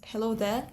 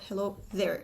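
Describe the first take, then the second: First: The r at the end is silent. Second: The r at the end is pronounced. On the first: "So no rhoticity here, it's hello there" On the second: "and not hello there"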